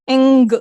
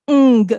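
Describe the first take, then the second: First: The g is released as a clear stop. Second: The same.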